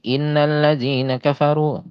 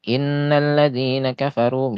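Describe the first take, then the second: First: "innallazina" said quickly, nn not held; wrong light tasydid. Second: "Innallazina" higher, nn held long; held tasydid. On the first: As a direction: skip the press on "innallazina". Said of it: "jadi tidak sampai". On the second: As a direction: hold the nn in "Innallazina". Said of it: "agak ditekan lama itu". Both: Shown as a demonstration.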